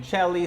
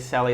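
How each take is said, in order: First: The name begins with a CH sound. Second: The name begins with an S sound. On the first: The speaker calls it wrong. "Most people say it wrong" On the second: The speaker calls it right. "it's always an S"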